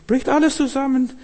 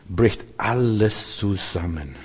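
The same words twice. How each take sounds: First: Much higher, ringing out on alles; emphatic repeat. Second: Lower, softer and slow, letting it fall apart; sinking collapse. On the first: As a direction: lift the repeat up high to hammer it home. Preacher repeats the collapse for emphasis. (hoch betont wiederholt, alles hervorgehoben) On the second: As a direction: let the words crumble downward. Preacher describes everything collapsing. (leise und langsam, zusammenbrechend) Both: Acted.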